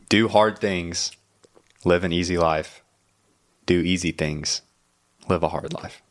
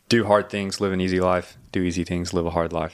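First: It is said slowly. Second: It is said at normal speed.

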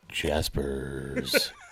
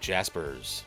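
First: It is said in a sultry late-night radio voice. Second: It is said in a plain, straight voice.

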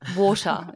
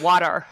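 First: It is said in a non-American accent. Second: It is said in an American accent. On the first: "my accent is so different" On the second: "That was good American"

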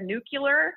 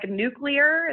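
First: The word has a common altered pronunciation. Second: The word has its standard pronunciation. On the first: The speaker calls it wrong. "is often said nuclear" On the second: The speaker calls it right. "a word that is often mispronounced"

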